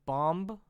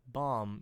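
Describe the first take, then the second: First: "bomb" with a rising pitch; questioning tune. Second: "Bomb" lower and falling; confirming tune. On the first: Reader doubts a word in the script, "bomb" rising questioningly. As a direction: ask "bomb" as if puzzled by it. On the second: Reader confirms the odd word, "Bomb" falling flatly. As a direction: settle "Bomb" as a statement. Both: Real, not acted.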